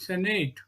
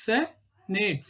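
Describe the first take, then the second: First: Said in the usual way. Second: SEN - ATE with a gap between; syllable by syllable. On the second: Shown as a demonstration. Teacher dividing a word for students, "senate" in two beats. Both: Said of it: "ಅದನ್ನ ಬಿಡಿಸಿದಾಗ".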